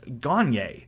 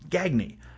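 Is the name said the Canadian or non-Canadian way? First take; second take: Canadian; non-Canadian. First: The name is said the Canadian way. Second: The name is said a non-Canadian way. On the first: "us Canadians pronounce G-A-G-N-E as Gagne" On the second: "not Gagne"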